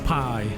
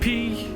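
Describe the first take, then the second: First: The vowel sounds like 'pie'. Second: The vowel sounds like 'pee'. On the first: "Is it P or pie?" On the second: "Is it P or pie?"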